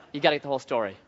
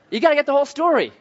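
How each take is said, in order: First: Said in the usual way. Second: Fast, high and louder; emphatic. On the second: Shown as a demonstration. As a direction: drive the point home.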